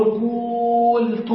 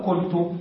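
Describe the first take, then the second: First: قلت with the u stretched very long, "quuul-tu"; long vowel before deletion. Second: قلت with a short u, "qul-tu"; short vowel after deletion. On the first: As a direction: hold the waw sound in قلت, drawing it out slowly. (قلت بمدّ الواو مدًّا طويلًا: قُووولْتُ) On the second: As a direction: say قلت compactly, no lengthening of the vowel. (قلت بضمة قصيرة دون مدّ: قُلْتُ) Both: Shown as a demonstration. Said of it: "فنحذف الواو".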